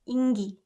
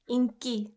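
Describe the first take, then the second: First: The second syllable starts with a soft g. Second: The second syllable starts with a hard k. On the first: The speaker calls it wrong. "following the rule that we just learned, it should be 인기" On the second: The speaker calls it right. "But this one is pronounced 인기"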